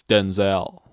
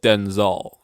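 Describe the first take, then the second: First: "Denzel" with a full second syllable, den-ZEL; correcting firmly to "Denzel" ending in a clear ZEL; corrected pronunciation. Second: "Denzel" with a weak, swallowed ending, like DEN-zul; mock-quoting "Denzel" said as DEN-zul; mispronounced name. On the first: Retold or imitated. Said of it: "It's Denzel". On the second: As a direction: say "Denzel" as DEN-zul, stressed on the first syllable. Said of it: "You said Denzel".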